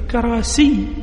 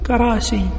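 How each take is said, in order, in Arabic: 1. صوت 'y' في النهاية مشدد. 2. صوت 'y' في النهاية مخفف. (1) "بتشديد الياء" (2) "أو بتخفيفها"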